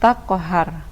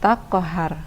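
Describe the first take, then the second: The two takes are said the same way.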